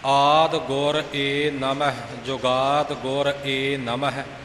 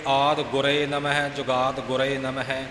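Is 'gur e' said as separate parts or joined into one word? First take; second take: separate; joined. First: 'Gur' and 'e' are said as separate parts. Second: 'Gur' and 'e' are joined into 'gure'. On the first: This is the old traditional recitation. The speaker calls it right. "ਇਹ ਪ੍ਰਾਤਨ ਉਚਾਰਨ ਹੈ।" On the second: This is the present-day recitation. The speaker calls it wrong. "ਅੱਜ ਕੱਲ੍ਹ ਦੇ ਇਉਂ ਪੜ੍ਹ ਜਾਂਦੇ ਨੇ"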